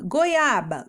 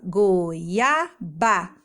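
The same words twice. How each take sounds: First: Said in the usual way. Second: GOIABA split into goi-a-ba; syllable by syllable. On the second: Shown as a demonstration. Teacher showing children the syllables, GOIABA said piece by piece. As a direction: sound out GOIABA in three drawn-out pieces. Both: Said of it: "as sílabas são os pedacinhos".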